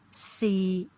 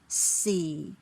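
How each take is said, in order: First: The pitch stays low and level. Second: The pitch falls low. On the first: "tone six is the middle low level" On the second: "Let me count from tone four to six"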